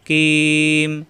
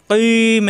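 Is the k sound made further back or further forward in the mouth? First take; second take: forward; back. First: The k is made slightly forward of the tongue root. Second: The k is made at the root of the tongue. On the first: The speaker calls it right. "জিব্বার গোড়া থেকে একটু আগে বাড়িয়ে কিম হা চাপ দিতে হবে" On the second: The speaker calls it wrong. "এটা কিন্তু আবার কিম এরম হবে না, অর্থাৎ জিব্বার গোড়ায় যাবে না"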